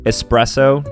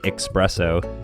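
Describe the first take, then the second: First: It starts with an s sound, no x. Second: It starts with an x sound. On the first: The speaker calls it right. "ten out of ten times" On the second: The speaker calls it wrong. "There's no X there, so you can't say"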